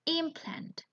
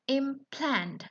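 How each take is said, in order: First: "implant" with a high-pitched stress on IM; stress on first syllable. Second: "Implant" with the stress on PLANT; stress on second syllable. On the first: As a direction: say "implant" as a noun, IMplant. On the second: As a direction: verb form "Implant", imPLANT. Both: Shown as a demonstration. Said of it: "It has different stress".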